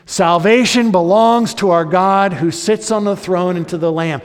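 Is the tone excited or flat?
flat. It is said in a flat, unexcited tone.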